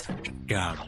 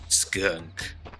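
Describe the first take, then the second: First: The word ends with an 'um' sound. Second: The word ends with a clear 'unk' sound.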